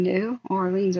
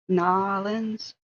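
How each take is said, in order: First: It is said as separate words, new and Orleans. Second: It is squeezed into two syllables, like nawlins. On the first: The speaker calls it wrong. "there's nothing new Orleans about it" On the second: The speaker calls it right. "N A W lens"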